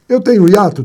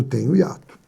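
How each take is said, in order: First: "Eu tenho hiato?" asked higher and louder with stress on "Eu"; teacher quizzing students; asking question. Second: "Tenho hiato." said lower and softer with a slight rise; teacher answering own question. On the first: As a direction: put "Eu tenho hiato?" to the class. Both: Shown as a demonstration.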